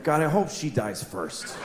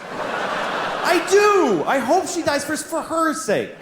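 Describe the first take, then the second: First: Quiet private thought. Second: Higher, laughing, half-shouted; laughing insistence. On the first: Retold or imitated. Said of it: "I always think". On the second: Real, not acted. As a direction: insist through laughter that you mean it. Insisting on his mean thought.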